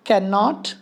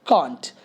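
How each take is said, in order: First: Said in the usual way. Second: "can't" short, one syllable, lower; contracted can't. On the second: Shown as a demonstration. ("can't" एक छोटे शब्दांश में) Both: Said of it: "दूसरा होता है can't".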